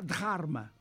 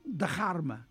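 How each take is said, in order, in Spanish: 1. La d es simple, sin soplo de aire. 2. La d va seguida de un soplo de aire.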